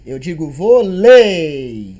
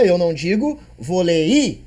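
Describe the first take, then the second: First: "volei" as one diphthong, slow and louder, "vo-lei"; right pronunciation. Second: "volei" said wrongly, split vo-le-i; wrong pronunciation. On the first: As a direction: say "volei" slowly with the "ei" glided together. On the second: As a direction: demo the wrong "volei" with the vowels pulled apart. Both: Shown as a demonstration.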